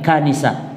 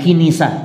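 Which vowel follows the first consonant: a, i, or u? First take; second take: a; i. First: The first syllable has the vowel a. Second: The first syllable has the vowel i. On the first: The speaker calls it right. "tapi kanisah" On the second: The speaker calls it wrong. "bukan kinisah"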